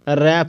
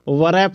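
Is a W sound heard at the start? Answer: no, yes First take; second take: no; yes. First: The word starts directly with the R sound. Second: The word starts with a W sound before R. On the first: The speaker calls it right. "रैप बोलेंगे" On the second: The speaker calls it wrong. "वरैप नहीं बोलेंगे"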